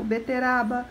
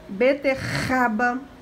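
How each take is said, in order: First: The middle R sounds weak. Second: The middle R sounds strong. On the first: The speaker calls it wrong. "Se colocar um R só entre duas vogais, vai ficar fraco" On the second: The speaker calls it right. "para ele ficar forte, a gente precisa chamar mais um"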